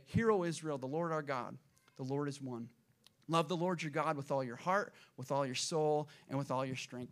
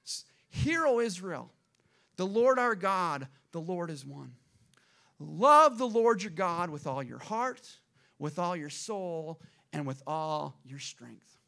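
First: Understated prayer, settling lower toward the end; daily prayer recitation. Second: Slow, weighty scripture proclamation; solemn public recitation, opening strong; Moses proclaiming scripture. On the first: Retold or imitated. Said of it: "they would say this prayer every single day". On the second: Acted. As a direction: declare it line by line, drawn out, easing down at the end. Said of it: "This is what Moses said".

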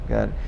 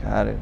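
No difference in how they are said.

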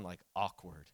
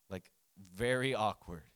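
First: Said in the usual way. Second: Very stretched slowly and leaned on, ending on a fall; slow emphatic very in very awkward; stress on very. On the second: Shown as a demonstration. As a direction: drag out very to underline the awkwardness.

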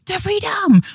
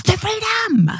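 First: High, loud cry of the freedom; hammed-up shout; mock dramatic cry. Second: High, loud, cracking cry of the freedom; hammed-up shout; mock dramatic cry. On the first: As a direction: belt it out like a rallying cry. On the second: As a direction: wail it like a battle cry. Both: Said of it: "I keep saying".

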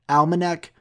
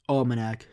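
First: "Almanac" opening with a short A, as in "pal"; pronunciation attempt. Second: "Almanac" opening with AWL, as in "all"; alternative pronunciation. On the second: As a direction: say "Almanac" starting like the word "all". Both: Shown as a demonstration. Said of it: "if I'm pronouncing it right".

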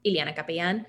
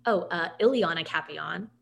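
First: Ileana Capellan flowing out with Spanish sounds; natural Spanish pronunciation. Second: Ileana Capellan carefully said with English sounds; hesitate, then say "Ileana Capellan" the Americanized way; deliberate Anglicized pronunciation. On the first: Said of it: "if I'm in the flow of talking". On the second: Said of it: "then I slow it all down". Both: Shown as a demonstration.

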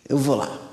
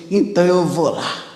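First: Repeated much softer, almost to himself; muttered afterthought. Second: Said in the usual way. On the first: Retold or imitated. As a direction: drop the voice on the repeat. Soldier mocking, daring himself.

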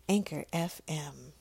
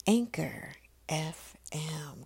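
First: Said in the usual way. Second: Slow, whispered station name. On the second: Shown as a demonstration. Host naming the station, in a slow drawn-out whisper. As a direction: draw out Anchor F M in a slow whisper. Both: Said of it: "Come on".

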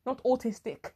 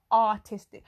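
First: Said in the usual way. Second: "artistic" said louder, first syllable "art"; "artistic" stressed clearly as a correction; corrected word. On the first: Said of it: "who's artistic". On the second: Shown as a demonstration.

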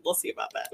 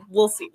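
First: Whispered aside under the breath. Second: Said in the usual way. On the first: Real, not acted. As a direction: breathe it like a private doubt. Self-doubting aside.

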